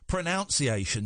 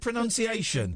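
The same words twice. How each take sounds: First: The second syllable sounds like 'noun'. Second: The second syllable sounds like 'nun'. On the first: The speaker calls it wrong. "not not what most idiots say" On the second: The speaker calls it right. "you get points for saying pronunciation"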